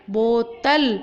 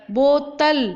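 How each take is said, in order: First: बोतल said clearly with a falling finish; clear model word. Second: बोतल said loud and clear with a round ओ; clear model word. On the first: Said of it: "इस तरह से आपको बोलना". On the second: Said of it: "बो में मेरा मुंह गोल हुआ". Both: Shown as a demonstration.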